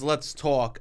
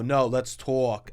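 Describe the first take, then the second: First: Said in the usual way. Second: Slow drawn-out Brooklyn "let's talk"; Brooklyn accent. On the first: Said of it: "I like when someone says". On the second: Retold or imitated. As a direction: stretch "talk" as "tawk", Brooklyn style. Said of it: "but then they go".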